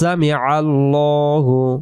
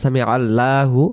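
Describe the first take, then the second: First: The L in Allahu is heavy and rounded. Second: The L in Allahu is thin and light. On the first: The speaker calls it right. "উচ্চারণ মোটা গোল হয়ে যাবে, ল হবে" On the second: The speaker calls it wrong. "লা উচ্চারণ হবে না"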